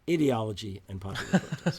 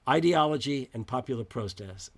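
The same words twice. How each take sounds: First: It is said with an English accent. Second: It is said with an American accent.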